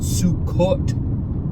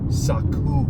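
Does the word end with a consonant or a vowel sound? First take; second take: consonant; vowel. First: The word ends with a consonant sound. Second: The word ends with a vowel sound. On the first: The speaker calls it wrong. "It's not Sukkot" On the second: The speaker calls it right. "That's not even the proper spelling or pronunciation of the feast"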